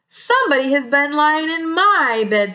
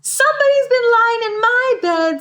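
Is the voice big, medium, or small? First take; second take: medium; small. First: It is said in a medium-sized voice. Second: It is said in a small, little voice.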